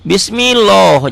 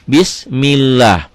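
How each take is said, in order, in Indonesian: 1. Huruf l dalam Allah terdengar tebal dan penuh. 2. Huruf l dalam Allah terdengar tipis dan ringan. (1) "jangan Bismillah" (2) "Bismillah dibaca tipis"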